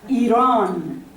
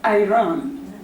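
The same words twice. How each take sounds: First: The first syllable sounds like 'ear'. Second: The first syllable sounds like 'eye'. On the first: The speaker calls it right. "the syllable is ear" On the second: The speaker calls it wrong. "not I"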